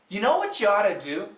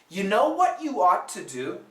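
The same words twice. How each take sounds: First: The sentence is said at a faster pace. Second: The sentence is said at a slower pace.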